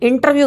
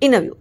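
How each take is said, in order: First: The t after n is clearly pronounced. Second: The t after n is dropped. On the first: The speaker calls it wrong. "ఇంటర్వ్యూ కాదు" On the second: The speaker calls it right. "ఎన్ పక్కన టీ వస్తే టీ పూర్తిగా తినేయడం better"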